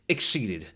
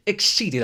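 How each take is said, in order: First: "Exceeded" set apart with a falling tune; measured emphasis. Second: "Exceeded" cried out high and loud; exclaimed emphasis. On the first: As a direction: say "Exceeded" as a firm, contained statement. Repeats the word for effect. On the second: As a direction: hit "Exceeded" much higher and louder, theatrically. Escalating repeat for effect. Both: Acted.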